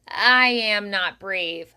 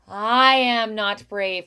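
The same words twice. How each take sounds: First: The first vowel starts with a hard glottal pop. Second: The first vowel starts with a smooth, gentle onset. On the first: "bring the vocal folds together, build up pressure behind, and then like pop the air through" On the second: "where the air and the vibration happen simultaneously"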